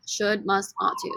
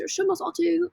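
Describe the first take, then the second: First: Said in the usual way. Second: High, light British accent. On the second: Shown as a demonstration. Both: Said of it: "Say it with British accents".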